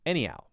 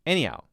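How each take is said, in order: First: The H sound is soft and blended, barely there. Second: The H sound is soft and blended, barely there.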